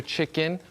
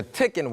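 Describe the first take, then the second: First: Said in the usual way. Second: "chicken" said as "tickin"; playful mispronunciation. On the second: Shown as a demonstration. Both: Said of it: "watch your mouth".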